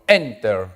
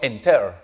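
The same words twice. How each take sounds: First: The stress is on the first syllable. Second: The stress is on the second syllable. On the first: The speaker calls it right. "Mayor fuerza de voz delante" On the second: The speaker calls it wrong. "Yo no digo enter"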